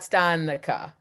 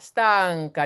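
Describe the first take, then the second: First: A vowel is inserted between the n and c. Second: The n flows straight into the c sound. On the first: The speaker calls it wrong. "not stanica" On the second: The speaker calls it right. "it's like a, an N G"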